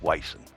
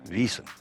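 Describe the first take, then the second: First: The word begins with a W sound. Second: The word begins with a V sound. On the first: The speaker calls it wrong. "So you would think of W I S O N. That would be" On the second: The speaker calls it right. "so the W becomes a V"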